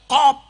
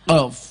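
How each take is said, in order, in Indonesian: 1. Kata itu diakhiri bunyi p. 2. Kata itu diakhiri bunyi f. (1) "sama sekali gak bisa ngomong qaf" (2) "kok aku disikut ya malah bisa"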